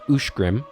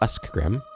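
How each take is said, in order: First: The middle consonant is a 'sh' sound. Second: The middle consonants are an 'sk' sound. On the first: The speaker calls it right. "this word is pronounced Ushgrim" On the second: The speaker calls it wrong. "and not Uskgrim"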